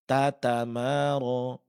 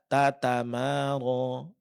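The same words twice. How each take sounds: The two takes are said the same way.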